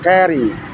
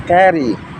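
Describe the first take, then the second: The two takes are said the same way.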